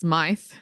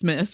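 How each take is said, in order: First: The vowel sounds like 'eye', ending in 'th'. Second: The vowel sounds like 'ih', a short vowel. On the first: The speaker calls it wrong. "I always thought the other one was pronounced Smythe" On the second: The speaker calls it right. "but it's Smith"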